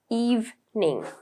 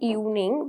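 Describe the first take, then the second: First: The middle consonant is a clear v sound. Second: The middle consonant is not a v sound. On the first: The speaker calls it right. "but it is evening. V" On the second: The speaker calls it wrong. "it's not evening"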